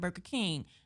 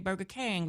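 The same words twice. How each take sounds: First: The last word is said like 'king'. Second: The last word is said like 'kang'. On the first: It is the standard way to say the name. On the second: It is the slang way to say the name.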